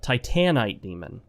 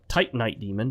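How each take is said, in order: First: The stress is on the second syllable. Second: The stress is on the first syllable. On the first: The speaker calls it right. "The emphasis on the second syllable" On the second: The speaker calls it wrong. "Not titanite"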